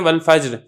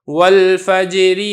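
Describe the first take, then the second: First: The word ends on a bare r consonant. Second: The word ends with a short i vowel. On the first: The reading stops at this word. "वक़्फ़ के अंदर तो ये जायज़ होता है" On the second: The reading continues into the next word. "अगर आप इसको मिला के पढ़ते हैं तो आप क्या पढ़ेंगे"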